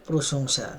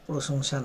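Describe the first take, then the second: No difference in how they are said.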